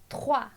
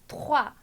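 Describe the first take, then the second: The two takes are said the same way.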